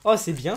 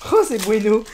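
First: Said in the usual way. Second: Louder delighted repeat of "c'est bueno"; excited loud. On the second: Real, not acted. Youtuber calling out his good pull, delighted. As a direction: bueno called out with a grin.

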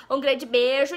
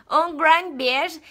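First: Said in the usual way. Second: "Um grande beijo" very slow and a little louder, in a borrowed foreign accent; halting foreign-accent goodbye, "Um grande beijo" stretched; put-on accent. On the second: Shown as a demonstration. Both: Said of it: "gostado do meu sotaque".

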